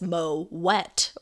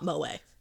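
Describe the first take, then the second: First: The final T is clearly sounded. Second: The final T is left silent. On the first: The speaker calls it right. "pronounced with a hard T and not a silent T" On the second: The speaker calls it wrong. "it's definitely not Moet"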